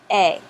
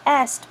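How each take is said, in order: First: A, an open e sound with no s or t; French pronunciation. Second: Est with the final S and T sounded, Latin style; Latin pronunciation. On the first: Teacher showing students how French says est, just the vowel. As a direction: drop every final sound, just a. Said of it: "they don't need to say all the sounds". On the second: Teacher showing students the Latin way of saying est. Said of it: "but it's not pronounced that way in French". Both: Shown as a demonstration.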